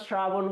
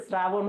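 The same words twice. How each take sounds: First: শ্রাবণ said "shrabon"; palatal sh. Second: শ্রাবণ said "srabon"; dental s. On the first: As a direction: start শ্রাবণ with sh. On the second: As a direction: start শ্রাবণ with a thin s. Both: Shown as a demonstration. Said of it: "এটা শ্রাবণ হয়েছে না শ্রাবণ".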